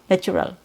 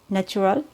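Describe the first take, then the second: First: The first vowel is said with an open mouth. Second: The first vowel is said with a closed mouth. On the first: The speaker calls it right. "you need to drop your jaw a little bit and make the tongue flat" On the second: The speaker calls it wrong. "It's not natural"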